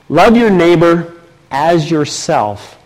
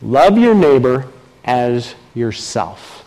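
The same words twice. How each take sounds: First: Slow, even first take of the verse; measured first reading. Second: Slow, lower take leaning on "your"; different inflection. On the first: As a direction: read the verse plainly and slowly. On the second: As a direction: say it again, pressing "your". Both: Shown as a demonstration. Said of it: "let me say it again, just with a different inflection".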